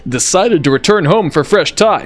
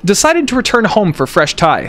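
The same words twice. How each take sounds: First: It is read in a put-on dad voice. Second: It is read in the speaker's normal voice.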